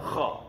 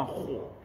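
First: Kha with an open a and relaxed lips; unrounded kha. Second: Kho with pouted lips and an o vowel; rounded kho. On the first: Teacher contrasts the right letter, unrounded kha. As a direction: say kha heavy without rounding the lips. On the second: Teacher shows the wrong letter, lip-rounded kho. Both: Shown as a demonstration. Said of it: "Bukan kho".

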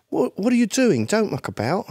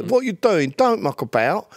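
First: Higher voice of a Cockney's son, Jamaican-tinged London; young London accent. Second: High-pitched Cockney impression; East London accent. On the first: Retold or imitated. Guest voices the Cockney's son, new London accent. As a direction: imitate London youth who lost the Cockney accent. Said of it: "You meet that guy's son". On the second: Guest imitates an old East London guy, Cockney accent. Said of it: "like East London".

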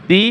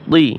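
First: "তি" with a thin dental t; light ta sound. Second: "তি" with a thick, emphatic Arabic t; heavy toa sound. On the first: Teacher repeats similar letters, "তি" with light t. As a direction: keep "তি" light, tongue flat. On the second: Teacher repeats similar letters, "তি" with emphatic t. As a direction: make "তি" heavy, tongue back raised. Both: Shown as a demonstration. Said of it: "একটা হরফের উচ্চারণ অন্য হরফের সাথে মিলে যায়".

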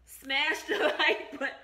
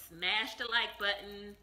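First: Slow, louder, breaking into laughs; laughing. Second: Said in the usual way. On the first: Real, not acted. Vlogger retakes her subscribe line, laughing through it. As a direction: try it again but crack up midway.

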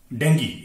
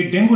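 First: डेंगी ending in "ee"; correct pronunciation. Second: डेंगू ending in a long "oo"; wrong pronunciation. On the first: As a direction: say डेंगी, DEN-gee with a hard g. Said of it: "इसे डेंगी पढ़ा जाना चाहिए". (सही उच्चारण, आखिर में ई के साथ डेंगी) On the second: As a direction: say डेंगू with a final oo sound. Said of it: "ये डेंगू नहीं". (गलत उच्चारण, आखिर में ऊ के साथ डेंगू) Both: Shown as a demonstration.

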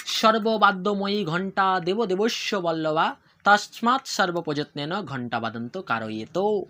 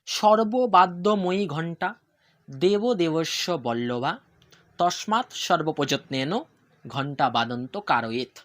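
First: Slow, measured Sanskrit chant in one flow; sing-song ritual recitation at a slow pace; mantra recitation. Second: Very slow, phrase by phrase with pauses; deliberate dictation of the Sanskrit verse; slow repeat for learners. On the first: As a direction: recite the bell mantra slowly and reverently. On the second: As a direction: break the mantra into short chunks so students can follow. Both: Shown as a demonstration. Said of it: "আমি আবার repeat করছি".

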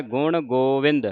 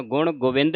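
First: ਗੁਣ ਗੋਬਿੰਦ with a long "go"; long o, hora. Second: ਗੁਣ ਗੋਬਿੰਦ with short "gu" in Govind; wrong short vowel. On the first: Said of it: "ਹੋੜੇ ਦਾ ਉਚਾਰਨ ਹੈ". (ਗੁਣ ਗੋਬਿੰਦ ਵਿੱਚ ਲੰਮਾ ਹੋੜਾ "ਗੋਵਿੰਦ") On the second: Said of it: "ਗੋਬਿੰਦ ਹੁੰਦਾ ਹੈ ਔਂਕੜ". (ਗੁਣ ਗੋਬਿੰਦ ਵਿੱਚ ਔਂਕੜ ਨਾਲ "ਗੁਵਿੰਦ") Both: Shown as a demonstration.

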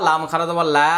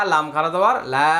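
No difference in how they are said.

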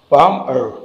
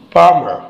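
First: "palmer" split into two beats, palm, er; syllable by syllable. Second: Said in the usual way. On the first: Shown as a demonstration. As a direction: pause between the syllables of "palmer". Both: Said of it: "दो syllables है".

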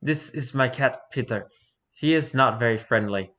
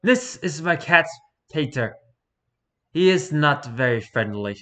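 First: Put-on Eastern European accent, deadpan. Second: Eastern European accent replayed. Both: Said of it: "with a heavy Eastern European accent".

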